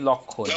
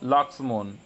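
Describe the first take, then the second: First: The name is said with a Bengali pronunciation. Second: The name is said with a Hindi pronunciation. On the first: "কেউ বলবে আরো কি লক্ষণ" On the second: "Hindi যারা বলে লাক্সমন বলে"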